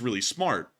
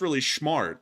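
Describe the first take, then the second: First: The s in smart sounds like s. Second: The s in smart sounds like sh. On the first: The speaker calls it right. "instead of it's really smart" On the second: The speaker calls it wrong. "I would pronounce my S's as sh sounds"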